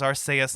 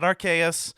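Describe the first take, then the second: First: The name follows the original Japanese pronunciation. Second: The name follows the anime's English pronunciation. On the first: The speaker calls it right. "Go back to the original Japanese. The name is Arceus" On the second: The speaker calls it wrong. "how they decided to pronounce it in the anime"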